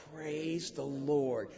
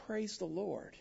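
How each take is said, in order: First: Soft, slow, lower Praise the Lord; mean it, not loud; quiet conviction. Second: Softer, low heartfelt praise; heartfelt hush. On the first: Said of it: "say it with conviction and not loud". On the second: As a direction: hold on tight as you say it. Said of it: "the heartfelt, holding on tight". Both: Shown as a demonstration.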